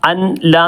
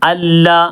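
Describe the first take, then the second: First: The n sound is pronounced separately before l. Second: The n merges into a doubled l sound. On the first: The speaker calls it wrong. "എന്നല്ല" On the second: The speaker calls it right.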